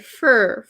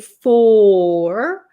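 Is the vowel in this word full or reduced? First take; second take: reduced; full. First: The word has a short, reduced vowel. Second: The word has a full, open vowel. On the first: The speaker calls it right. "We say fur, Notice how closed my mouth is?" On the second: The speaker calls it wrong. "We don't usually say four"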